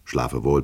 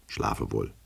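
First: Said in the usual way. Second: Schlafe wohl said much softer, trailing off; softer, fading good night. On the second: A narrator's reading. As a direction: let the second schlafe wohl drift away quietly. Repeated good night, fading away. (leise verklingend: schlafe wohl)

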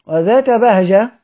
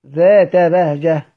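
First: Said in the usual way. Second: ذات بهجة said slowly, with ذات held clearly; careful recitation of ذات بهجة; slow Quranic recitation of ذات بهجة; slow demo of a stop. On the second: Shown as a demonstration. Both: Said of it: "قيدها بكلمة إيه؟".

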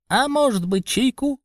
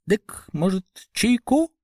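First: Rubbery high squeaky toy voice; squeaky pipe. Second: Rubbery high squeaky toy voice; piping little fat man; squeaky pipe. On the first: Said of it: "пискнул толстячок". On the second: Толстячок снова предлагает чай. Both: A narrator's reading. (писклявый голосок толстячка)

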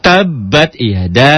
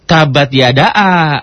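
First: "Tabbat yada" slow, drawn out; slow recitation. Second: "tabat yada a" with an extra separate a; wrong vowel demo. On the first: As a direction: recite it slowly. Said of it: "Alifnya itu bukan yada a". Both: Shown as a demonstration.

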